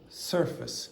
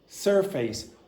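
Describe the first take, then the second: First: The second syllable is weak and reduced. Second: Both syllables are said with equal strength. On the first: The speaker calls it right. "one of them at least is going to be weak" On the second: The speaker calls it wrong. "each syllable has the same strength"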